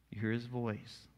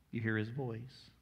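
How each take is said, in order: Both takes have the same delivery.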